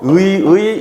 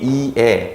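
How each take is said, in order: First: Both syllables are said with the vowel ui. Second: The first syllable has i, the second has e. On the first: "의라고 발음해도 되고" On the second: "네 개를 모두 허용한다"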